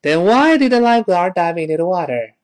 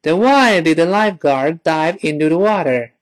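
First: It is said fast. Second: It is said slowly.

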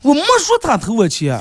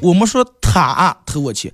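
First: The stress is on 没. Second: The stress is on 他.

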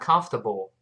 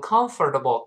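First: The or in the middle is silent. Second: The or in the middle is fully pronounced. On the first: The speaker calls it right. "读成 conf，不要读 comfortable conf，马上读后面那个 table" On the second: The speaker calls it wrong. "不要读成 comfortable"

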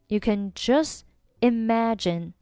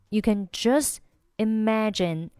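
First: Just ends with dropped t, separate from imagine. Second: The same.

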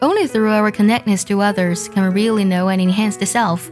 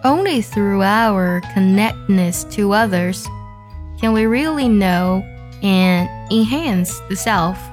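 First: It is read at normal speed. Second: It is read slowly.

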